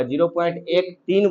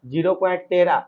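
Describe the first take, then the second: First: zero point एक तीन read digit by digit, एक and तीन separate; correct reading. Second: zero point तेरह read with तेरह as one number, the wrong way. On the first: Teacher showing students the right way to read a decimal. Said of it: "zero point एक तीन बोलो". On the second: Teacher showing students the wrong way to read a decimal. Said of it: "तेरह नहीं बोलना". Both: Shown as a demonstration.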